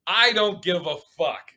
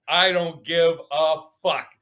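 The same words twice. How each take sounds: First: Said at his usual pace, a touch defiant; defiant shrug. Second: Slow, drawn-out and louder; slower defiant repeat. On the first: Telling the hostile crowd, mildly defiant. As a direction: toss it off to the hostile room. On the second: Repeating it to the crowd, slow and louder. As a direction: lean into each word the second time. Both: Retold or imitated. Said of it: "I literally go".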